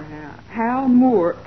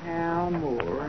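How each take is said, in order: First: Said in the usual way. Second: Low, soft murmur to oneself; searching mutter. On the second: Acted. Assistant looking up a suspect in the files, muttering. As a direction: read the name under your breath, low.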